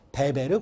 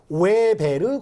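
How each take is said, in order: First: The name begins with a B sound. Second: The name begins with a W sound. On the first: This is the German-style reading. "독일어식으로 발음을 하면 베베르라고 읽습니다" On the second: This is the English-style reading. "W가 영어로 이야기를 하면 웨베르라고 읽고"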